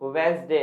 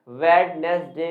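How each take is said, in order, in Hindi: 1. इसमें दो अक्षर हैं, d की आवाज़ नहीं होती। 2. इसमें तीन अक्षर हैं, d की आवाज़ होती है। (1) "सही प्रोनाउंसिएशन होता है वेंसडे" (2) "वेडनेसडे नहीं होता"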